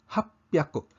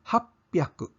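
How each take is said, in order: No difference in how they are said.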